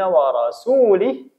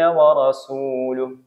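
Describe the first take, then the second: First: The vowel before the final h is 'i'. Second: The vowel before the final h is 'u'. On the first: God disowns the polytheists and the Messenger. The speaker calls it wrong. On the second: The Messenger also disowns the polytheists. The speaker calls it right.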